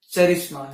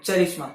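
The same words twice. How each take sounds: First: "चरिश्मा" with a hard ch sound, not k; charisma said with ch. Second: "चरिश्मा" repeated with a hard ch sound; charisma said with ch. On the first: Vlogger insisting to viewers, "चरिश्मा" said ch-arisma. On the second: Vlogger repeating for viewers, "चरिश्मा" with ch. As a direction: stress "चरिश्मा" as ch-arisma, deliberately. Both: Shown as a demonstration. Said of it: "right, आपने सही सुना".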